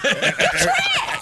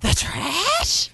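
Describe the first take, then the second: First: The voice falls at the end like a statement. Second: The voice rises at the end like a question.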